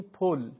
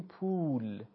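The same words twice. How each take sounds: First: پل with the short Persian o. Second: پول with the long Persian oo. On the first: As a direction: clip the vowel in پل. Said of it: "شکل تلفظ". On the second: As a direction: hold the oo in پول. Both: Shown as a demonstration.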